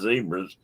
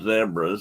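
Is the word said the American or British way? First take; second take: American; British. First: It is said the American way. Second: It is said the British way.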